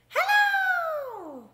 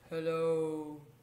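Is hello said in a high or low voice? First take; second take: high; low. First: Hello is said in a high voice. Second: Hello is said in a low voice.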